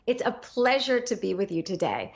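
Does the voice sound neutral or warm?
neutral. The tone is plain and ordinary.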